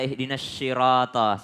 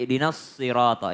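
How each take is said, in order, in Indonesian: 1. Kata sirata diawali dengan bunyi 'sh'. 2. Kata sirata diawali dengan bunyi 's'. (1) "biasa orang membaca ihdinas syirata, salah" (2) "Tapi ihdinas sirata"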